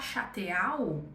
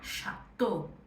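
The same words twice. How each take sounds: First: The ending is not said as a plain O. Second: The ending is said as a plain O. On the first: The speaker calls it wrong. "em vez de eu falar chateau" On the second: The speaker calls it right. "É como se fosse um O"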